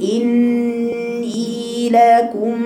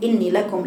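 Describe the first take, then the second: First: The nasal n and the long vowel are held long. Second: The nasal n and the long vowel are clipped short. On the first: The speaker calls it right. "بطلع على النون الساكنة اللي هي الغنة بقول إني لكم" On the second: The speaker calls it wrong. "ما قلش إني لكم إني لكم لا جبت الغنة بالحركتين ولا جبت الياء حركتين"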